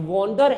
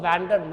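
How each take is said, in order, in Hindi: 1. पहला स्वर 'on' के 'o' जैसा बोला जाता है। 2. पहला स्वर 'cat' के 'a' जैसा बोला जाता है। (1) "ये वॉन्डर है" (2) "इसको वैंडर मत पढ़िएगा"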